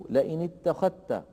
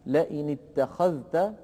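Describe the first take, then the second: First: "لئن اتخذت" pronounced as ittakhatta; merged form. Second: Measured "لئن اتخذت", dhal and ta kept separate; unmerged form. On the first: Teacher shows Warsh's merging, "اتخذت" with doubled t. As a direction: say "اتخذت" with the dhal swallowed into a doubled ta. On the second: Teacher gives the form before merging, "اتخذت" with dhal pronounced. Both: Shown as a demonstration. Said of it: "تصبح".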